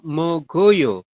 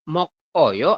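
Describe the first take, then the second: First: The consonant links into the next syllable as g. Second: A final k is kept before a break. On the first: The speaker calls it right. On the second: The speaker calls it wrong.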